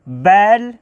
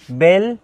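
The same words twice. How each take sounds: First: बैल with an open "ae", rhyming with "pal"; misread vowel. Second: बेल with a close "ay" vowel, like "bail"; careful model reading of बेल with "ay"; corrected long e. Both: Shown as a demonstration. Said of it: "यानी कि बेल, sorry".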